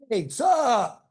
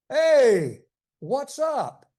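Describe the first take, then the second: First: "What's up" is squeezed into one syllable. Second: "What's up" is said as two clear syllables.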